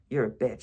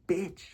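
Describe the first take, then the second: First: It is said plainly, without attitude. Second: It is said loudly with swagger.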